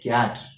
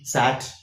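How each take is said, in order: First: The word begins with a k sound. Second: The word begins with an s sound. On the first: The speaker calls it right. "but we say cat" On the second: The speaker calls it wrong. "then C A T must be sat"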